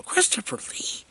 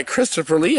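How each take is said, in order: First: High, airy, much softer incredulous repeat; hushed disbelief. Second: Said in the usual way. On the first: Real, not acted. Reviewer amazed this actor took the role, hushed disbelief. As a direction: say the name as if you can't believe it.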